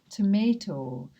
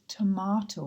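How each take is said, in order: First: It is said in an American English accent. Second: It is said in a British English accent. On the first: "if you had an American English teacher, they may say tomato" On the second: "because I'm British English, I pronounce it tomato"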